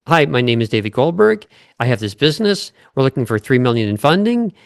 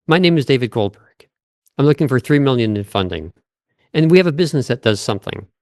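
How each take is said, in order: First: Every sentence rising at the end like a question; upspeak. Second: Every sentence falling at the end, confident; downward inflection. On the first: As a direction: end each line going up, unsure. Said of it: "this is an example of upspeak". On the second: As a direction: bring each line down at the end. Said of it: "So for example". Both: Shown as a demonstration.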